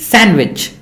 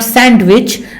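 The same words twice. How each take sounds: First: No D sound is heard after the N. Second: A D sound is heard after the N. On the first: The speaker calls it right. "but this is sandwich" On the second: The speaker calls it wrong. "This is not sandwich"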